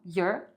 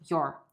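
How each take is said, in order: First: "your" said as "yer"; reduced "your". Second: "your" said as "yor", falling; full "your". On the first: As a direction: give "your" an er vowel, drawn out. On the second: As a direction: give "your" a rounded or vowel. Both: Shown as a demonstration. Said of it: "Então, your ou your".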